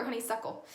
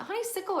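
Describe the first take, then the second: First: "honeysuckle" said as honey-SUCK-ul; SUCKLE pronunciation. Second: "honeysuckle" said as honey-SICK-ul; short i in the "suck" of "honeysuckle"; SICKLE pronunciation. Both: Shown as a demonstration. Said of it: "I can never remember this word".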